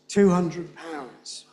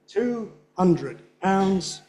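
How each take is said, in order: First: The middle word loses its beat and is weak. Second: Each of the three words gets its own beat. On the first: "the one on the bottom is the norm" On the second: "Putting the stresses on all of them is not the default"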